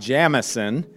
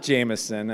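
First: The name is pronounced the Scottish way. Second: The name is pronounced the Irish way. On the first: The speaker calls it right. "So Bob Jamieson" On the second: The speaker calls it wrong. "not Jamieson, as the Irish might say it"

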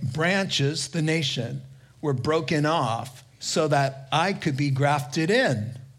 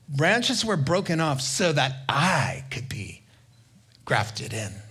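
First: It is said in a plain, neutral tone. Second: It is said arrogantly, stressing the speaker himself.

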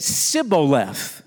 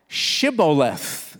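First: The word begins with a plain s sound. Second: The word begins with an sh sound. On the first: The speaker calls it wrong. "he couldn't pronounce the word correctly" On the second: The speaker calls it right. "say now, Shibboleth"

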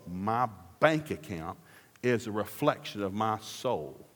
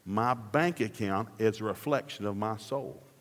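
First: It is said very slowly. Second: It is said at normal speed.

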